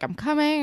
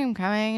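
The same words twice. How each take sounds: First: Calling out. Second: Said in the usual way. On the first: Retold or imitated. Calling out to the doorbell.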